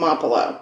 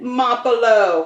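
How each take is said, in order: First: It is said in a plain, non-Italian accent. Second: It is said in an Italian accent.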